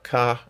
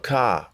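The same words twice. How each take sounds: First: The word is said with a high tone. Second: The word is said with a falling tone. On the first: "or the high tone" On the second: "the falling tone"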